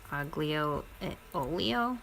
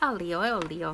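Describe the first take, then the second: First: The G and L in aglio are sounded. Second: The G and L in aglio are silent. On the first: "It's spelled aglio, like A G, A G" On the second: "they don't pronounce the G and the L"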